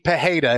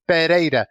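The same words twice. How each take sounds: First: The R is said like a double R. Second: The R is said like a single R. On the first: "if there were two R's put together, then it would be" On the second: "If there's just one R, it's"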